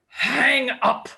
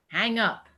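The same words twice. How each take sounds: First: It is said forcefully, with gusto. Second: It is said flatly, without force.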